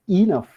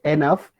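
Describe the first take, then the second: First: The first vowel sounds like an 'i'. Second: The first vowel sounds like an 'a'. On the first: The speaker calls it right. "it is enough" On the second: The speaker calls it wrong. "It is not enough"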